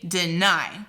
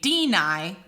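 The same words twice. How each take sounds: First: The stress is on the second syllable. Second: The stress is on the first syllable. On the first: The speaker calls it right. "we say deny" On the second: The speaker calls it wrong. "You don't say deny"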